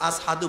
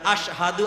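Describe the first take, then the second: First: The consonant before 'hadu' is a plain s sound. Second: The consonant before 'hadu' is an sh sound. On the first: "আসহাদু বলে" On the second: "স্পষ্ট করে বলতে পারে না"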